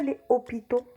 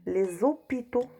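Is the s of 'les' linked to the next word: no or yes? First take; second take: no; yes. First: The s of les is not linked. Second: The s of les links with a z sound. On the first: The speaker calls it wrong. "On ne dit pas" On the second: The speaker calls it right.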